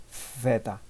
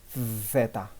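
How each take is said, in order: No difference in how they are said.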